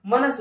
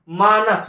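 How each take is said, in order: First: मनस with a short first vowel, "ma-nas"; wrong pronunciation. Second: मानस with a long first vowel, "maa-nas"; correct pronunciation. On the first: Teacher rejecting the misspelt word, short "manas". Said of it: "नहीं होता". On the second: Teacher giving students the right word, long "maanas". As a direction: stretch the "aa" in मानस. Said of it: "होता है". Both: Shown as a demonstration.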